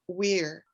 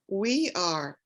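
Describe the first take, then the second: First: It is said contracted into one short syllable. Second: It is said as two full separate words. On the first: "it's not pronounced the same" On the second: "it becomes we are"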